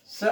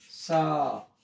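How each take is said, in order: First: स with a very short, cut-off "a"; short vowel. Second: सा with the "aa" held long; long vowel. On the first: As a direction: say "स" as one brief beat. ("स" छोटी आवाज़ में, बिना खींचे) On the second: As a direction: stretch out "सा". ("सा" लंबा खींचकर) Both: Shown as a demonstration. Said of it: "बड़ी मात्रा".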